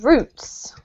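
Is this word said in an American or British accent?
British. It is said with a British accent. "that's with a British accent, actually"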